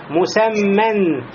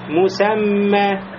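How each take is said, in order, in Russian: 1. Слово заканчивается звуком «н». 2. Слово заканчивается гласным, без «н». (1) "танвин, нун сукун в конце" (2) "А если останавливаемся, говорим просто"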